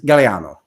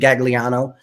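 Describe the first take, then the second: First: The name is said the Italian way. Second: The name is said as spelled, anglicized. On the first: This is how it is said in Italy. "but in Italy... The proper is Galliano" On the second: It helps listeners know how to spell it. "If I have to pronounce it phonetically, I'll say Gagliano so people know how to spell it"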